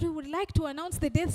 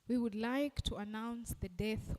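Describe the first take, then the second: First: It is said in a cheerful, upbeat tone. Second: It is said in a serious, solemn tone. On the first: It sounds like a party is coming. The speaker calls it wrong. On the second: The message is a sad announcement. The speaker calls it right.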